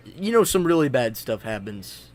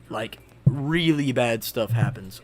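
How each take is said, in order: First: Said in the usual way. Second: 'really bad stuff happens' said slowly, leaning on 'really'; slow, ominous emphasis. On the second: Real, not acted. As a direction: drag it out to warn that things go wrong.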